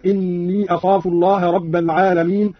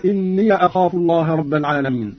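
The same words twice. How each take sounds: First: Said in the usual way. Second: "إني" said inniya; opened yaa. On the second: Shown as a demonstration. Teacher demonstrating the same rule, "إني" ending in -ya. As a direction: add a short a after the yaa of "إني". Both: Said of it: "فتح الياء أيضًا هكذا".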